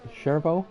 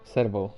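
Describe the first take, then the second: First: The name begins with a ch sound. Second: The name begins with an s sound. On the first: "with like a ch sound" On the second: "like an s sound"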